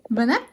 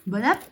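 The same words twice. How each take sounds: First: Higher, louder repeat. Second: High, bright, rising. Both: Real, not acted. Feeding the baby. (voix pour parler à un bébé)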